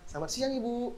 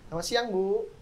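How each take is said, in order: First: It is said with a flat, unsmiling voice. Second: It is said with a smiling, warm voice. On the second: "Dengan kita senyum"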